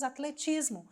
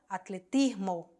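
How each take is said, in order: First: It is pronounced with Portuguese sounds. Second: It is pronounced with Spanish sounds. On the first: "Em português falamos atletismo" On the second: "em espanhol"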